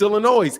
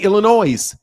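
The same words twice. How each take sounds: First: The final S sound is silent. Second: The final S sound is pronounced. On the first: It is how locals say it. The speaker calls it right. "You don't pronounce that S" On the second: It is how outsiders say it. The speaker calls it wrong. "people outside Illinois say Illinois"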